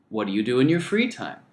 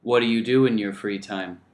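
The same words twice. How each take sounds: First: "What do you do in your free time?" with free stressed and falling. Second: "What do you do in your free time?" with do stressed and falling; wrong stress on the second "do"; flat stress on do. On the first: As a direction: put the weight on "free". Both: Shown as a demonstration. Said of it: "There's a big difference between".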